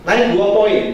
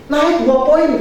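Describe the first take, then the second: First: Said in the usual way. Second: High, bright quoted doctor; quoting the doctor. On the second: Retold or imitated. Doctor reporting the child's score, quoted high.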